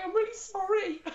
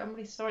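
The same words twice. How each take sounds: First: High, laughing take on the apology; imitating her friend. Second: Softly spoken apology; sympathetic apology. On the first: Retelling her friend's apology, high laughing imitation. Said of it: "She was, like, going". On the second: Retold or imitated. Friend who passed consoling her, soft apology. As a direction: say it gently to a disappointed friend. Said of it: "she was going".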